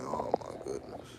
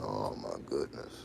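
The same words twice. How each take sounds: First: Low, slow dismayed sigh; mock dismay. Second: Low, slow mock dismay. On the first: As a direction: drag it out low, a little less deep. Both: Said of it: "I'm like".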